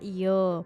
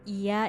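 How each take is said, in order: First: It is said in Jambi dialect, ending in o. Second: It is said in standard Indonesian, ending in a.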